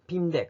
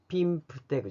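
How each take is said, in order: First: No p sound comes before 'deg'. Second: A p sound comes right before 'deg'. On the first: The speaker calls it right. "ピンデグって言うんですよね" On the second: The speaker calls it wrong. "ピンプデグじゃなくて"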